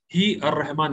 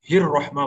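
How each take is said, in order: First: ही अर रहमान split, with a separate "ar" after hi; wrong separated form. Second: हिर रहमा with hi running straight into a doubled r; correct joined form. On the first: Teacher warns what not to say, wrong separated form. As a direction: break after hi and sound the alif in ही अर रहमान. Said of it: "नहीं बोलेंगे". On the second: Teacher tells students what to say, correct joined form. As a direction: glide from hi into the r in हिर रहमा, no vowel between. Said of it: "ये हे से हिर रहमा बोलेंगे". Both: Shown as a demonstration.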